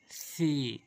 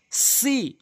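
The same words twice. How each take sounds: First: সি as soft "thee", tongue at teeth tips; quiet lisped সি; light lisped সি. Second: সি with sharp hissed s, high pitch; strong raised "see" for সি; hard seen সি. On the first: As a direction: breathe a gentle th into সি. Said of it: "এটি হালকা করে". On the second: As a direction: press a firm s into সি. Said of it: "সা শক্ত করে". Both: Shown as a demonstration.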